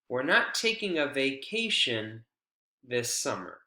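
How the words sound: The pitch falls after the focus word. It is a certain statement of what will happen. "Falling intonation"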